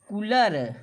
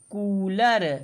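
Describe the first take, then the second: First: The first vowel is short and quick. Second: The first vowel is long and held. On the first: The speaker calls it wrong. "यदि छोटा ऊ की मात्रा लगाएंगे तो ये हो जाएगा कूलर" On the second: The speaker calls it right. "यहाँ पर लिखा है कूलर"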